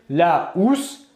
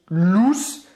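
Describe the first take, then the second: First: The article's vowel is kept before the noun. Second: The article's vowel is dropped and joined on. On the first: The speaker calls it right. "On va dire la housse" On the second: The speaker calls it wrong. "on ne va pas dire ici l'ousse"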